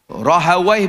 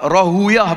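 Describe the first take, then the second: First: The name ends with a 'wai' sound. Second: The name ends with a 'uyah' sound. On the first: This is the reading linguists tend to use. "Rahawai pun boleh baca" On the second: This is the reading hadith scholars prefer. "Rahuyah pun boleh baca"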